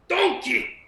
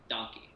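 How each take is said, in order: First: It is said in a Shrek impression voice. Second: It is said in the speaker's normal voice.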